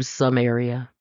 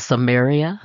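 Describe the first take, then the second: First: "some area" said as two plain words, some and area; the pastor's pun on Samaria, spoken as "some area". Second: "Samaria" said as one word, suh-MARE-ee-uh; the Bible name set against the pastor's pun, said as suh-MARE-ee-uh; proper Bible name. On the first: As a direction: say "some area" as a separate some plus area. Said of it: "my pastor calls it some area". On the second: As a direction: give "Samaria" as the single Bible place name, stress on MAR. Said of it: "in the Bible, it was called Samaria". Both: Shown as a demonstration.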